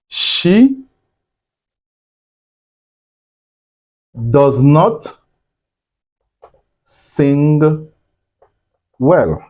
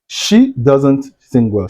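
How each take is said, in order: First: The words 'does not' are said in full. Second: The words 'does not' are contracted into one.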